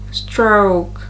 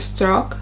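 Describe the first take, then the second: First: The vowel glides, ending in a small oo. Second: The vowel is a single short pure sound. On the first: The speaker calls it right. "it's a bit more prolonged. I visualize it as I say stroke" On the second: The speaker calls it wrong. "instead of stroke"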